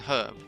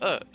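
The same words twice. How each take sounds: First: The word begins with an audible H sound. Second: The word begins with no H sound. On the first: "we pronounce the H in herb" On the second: "we used to pronounce it without an H"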